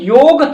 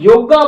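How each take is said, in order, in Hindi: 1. शब्द का अंत 'g' व्यंजन से होता है। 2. शब्द के अंत में एक 'aa' स्वर जोड़ा गया है। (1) "जैसे कि हमारा योग था" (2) "हम योगा बोल रहे हैं"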